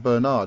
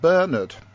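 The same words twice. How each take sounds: First: The name is said in an American way. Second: The name is said in a non-American way.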